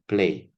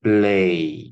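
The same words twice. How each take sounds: First: The l after p is voiceless. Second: The l after p is fully voiced. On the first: The speaker calls it right. "Tapi pray, play, pew gitu seperti itu" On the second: The speaker calls it wrong. "Tidak play gitu ya"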